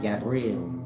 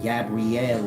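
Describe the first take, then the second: First: The final 'el' is merged into a plain 'l'. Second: The final 'el' is sounded as its own syllable. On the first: "instead of" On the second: "you start pronunciating the E and you get it"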